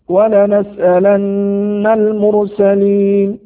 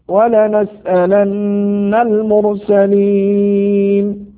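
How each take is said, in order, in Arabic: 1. يُمَدّ حرف المد الأخير قليلًا. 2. يُمَدّ حرف المد الأخير مدًا متوسطًا. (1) "يجوز فيه القصر" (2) "أو التوسط"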